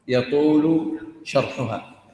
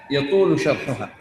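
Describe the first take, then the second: First: يطول شرحها drawn out slowly and heavily; slow right down on يطول شرحها; slow repeat. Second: Said in the usual way. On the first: Shown as a demonstration. Teacher slowly repeating يطول شرحها to his class.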